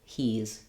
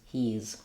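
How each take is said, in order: No difference in how they are said.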